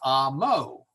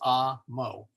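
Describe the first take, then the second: First: The stress is on the second syllable. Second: The stress is on the first syllable. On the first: The speaker calls it wrong. "not amo" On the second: The speaker calls it right. "So it's amo"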